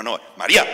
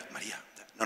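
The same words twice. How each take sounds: First: María shouted loud and sharp. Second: María no said softly, almost breathed; the gentle call he rules out. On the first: Jesus shouting at María to stop her. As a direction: yell her name to stop her. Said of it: "le tiene que pegar un grito". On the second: Jesus calling María in a soft, breathy voice. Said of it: "yo estoy convencido que no es". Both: Shown as a demonstration.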